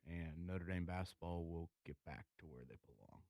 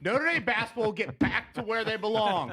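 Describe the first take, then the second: First: It is said flatly, without conviction. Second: It is said forcefully, with conviction. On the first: The speaker calls it wrong. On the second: The speaker calls it right.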